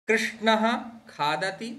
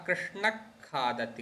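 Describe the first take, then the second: First: The first word ends in a breathy h sound. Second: The first word ends in a kh-like sound.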